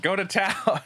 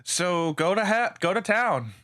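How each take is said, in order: First: "Go to town" with a laugh, pitched up. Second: Said in the usual way. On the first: Real, not acted. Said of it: "wrong word". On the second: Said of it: "Almost said go to hell".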